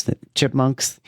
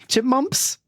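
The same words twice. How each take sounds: First: Said in the usual way. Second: Chipmumps said with mps, no k; Chipmumps, high and questioning; mispronounced Chipmumps. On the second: Shown as a demonstration.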